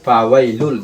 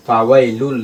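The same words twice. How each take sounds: The two takes are said the same way.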